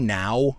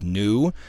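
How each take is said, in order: First: It rhymes with the English word 'now'. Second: It is said with Spanish-style vowels. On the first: "It could be now" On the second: "I'm trying to apply Spanish pronunciation standard to it"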